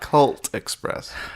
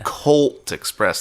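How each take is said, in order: First: The first word has a short 'uh' vowel. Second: The first word has a long 'oh' vowel. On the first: The speaker calls it wrong. "not Cult Express" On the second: The speaker calls it right. "Colt Express, not Cult Express"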